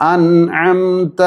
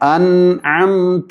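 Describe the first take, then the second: Both takes have the same delivery.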